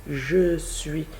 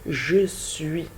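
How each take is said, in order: The two takes are said the same way.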